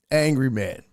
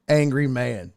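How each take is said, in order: Both takes have the same delivery.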